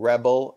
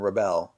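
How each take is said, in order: First: "rebel" as a noun, REB-el; stress on first syllable. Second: "rebel" as a verb, ruh-BEL; stress on second syllable. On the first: Showing viewers the noun form, "rebel" stressed REB-el. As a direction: hit the front of "rebel": REB-el. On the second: Showing viewers the verb form, "rebel" stressed ruh-BEL. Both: Shown as a demonstration. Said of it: "pronounced differently if they're a verb or a noun".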